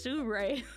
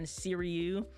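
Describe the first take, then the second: First: The name ends with a 'roo-ee' sound. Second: The name ends with a 'ree-oo' sound. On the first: The speaker calls it right. "It's Sirui" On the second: The speaker calls it wrong. "not like camera conspiracies be saying Siriu. That's not how you say it"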